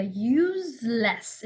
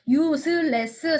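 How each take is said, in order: First: "Useless" in two beats, no added vowels; two-syllable version. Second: "Useless" with extra vowels, yu-seu-le-seu, higher; mock-wrong "Useless" in four Koreanized beats; wrong four-syllable version. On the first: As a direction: model "Useless" slowly as use-less, falling at the end. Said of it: "이렇게 이음절인데". ("Useless"를 유스-레스 두 음절로 정확히) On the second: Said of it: "사음절이 아닙니다". ("Useless"를 유-스-레-스 네 음절로 틀리게) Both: Shown as a demonstration.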